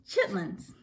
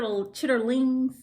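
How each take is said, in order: First: The word is said with two syllables. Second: The word is said with three syllables. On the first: The speaker is from the South. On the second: The speaker is not from the South.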